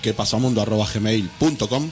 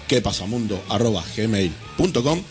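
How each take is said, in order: First: It is said at a normal, quicker pace. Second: It is said at a slower, careful pace.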